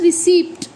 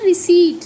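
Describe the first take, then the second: First: रिसिप्ट as ri-SEEPT, p sounded; louder ri-SEEPT with p-t ending; common mispronunciation. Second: रिसीट said ri-SEET, p left out; emphatic p-less रिसीट; silent p. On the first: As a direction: say the p in रिसिप्ट clearly. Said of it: "हम लोग क्या बोल देते हैं". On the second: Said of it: "इसे हम बोलते हैं". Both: Shown as a demonstration.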